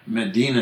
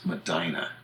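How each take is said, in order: First: Said in the usual way. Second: Medina as meh-DYE-nuh; stressed long I in Medina; American town pronunciation. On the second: Shown as a demonstration. Telling how Michigan and Ohio say it, Medina pronounced meh-DYE-nuh. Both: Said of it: "in which it becomes Medina".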